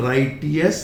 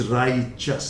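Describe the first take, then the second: First: "righteous" said slowly as rai-tee-us; wrong pronunciation. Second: "righteous" said slowly as RAI-chus; correct pronunciation. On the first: Teacher showing the form to avoid, mispronounced on purpose. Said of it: "So it is not righteous". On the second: Teacher correcting the word for learners, said carefully. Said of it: "it is righteous". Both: Shown as a demonstration.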